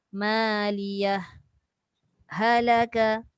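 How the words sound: The voice stops briefly between the two words. "Dia ada terputus sekejap"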